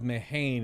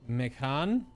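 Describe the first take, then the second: First: The middle consonant is a plain h sound. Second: The middle consonant is a soft k sound. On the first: The speaker calls it wrong. "Instead of Mehane" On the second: The speaker calls it right. "it's like Mekhan"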